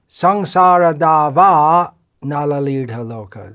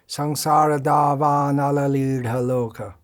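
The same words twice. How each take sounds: First: The phrase is broken by a pause. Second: The phrase flows without any pause. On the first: The speaker calls it wrong. "It's it's not proper" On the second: The speaker calls it right. "in one continuous flow"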